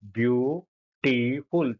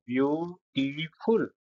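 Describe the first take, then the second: First: beautiful stretched slowly, syllable by syllable; slow syllable demo. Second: Said in the usual way. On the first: Shown as a demonstration. Teacher counting syllables aloud, very slow. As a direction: pull beautiful apart slowly for the class. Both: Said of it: "तीन syllable शब्दांश हुए ना बेटा".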